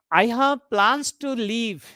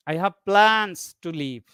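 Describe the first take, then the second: First: Slow, with the weight landing on "leave"; stress on LEAVE. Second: Slow, "plans" stretched out and weighted; stress on PLANS. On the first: Teacher showing students tonic stress, stress on "leave". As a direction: make "leave" the key word of the sentence. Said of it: "the leave word is bold and underlined". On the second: Teacher contrasting two meanings, stress on "plans". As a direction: lean long on "plans", let "to leave" drop. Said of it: "means I have some plans to leave". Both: Shown as a demonstration.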